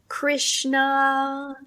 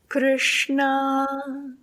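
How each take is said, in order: First: The consonants are said the ordinary English way. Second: The consonants are made with the tongue curled back. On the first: The speaker calls it wrong. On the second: The speaker calls it right.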